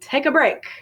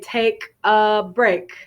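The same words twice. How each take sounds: First: The words are linked smoothly into one unit. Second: The words are said separately, not linked. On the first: The speaker calls it right. "I'm connecting those words together" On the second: The speaker calls it wrong. "I don't say take a break"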